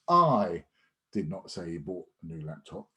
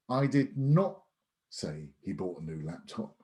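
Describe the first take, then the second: First: The stress is on the word I. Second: The stress is on the word not.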